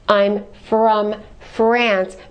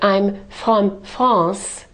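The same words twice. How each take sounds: First: The R is made with a curled tongue. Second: The R is made in the throat. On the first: The speaker calls it right. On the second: The speaker calls it wrong. "Don't create the R in the throat either. So don't say"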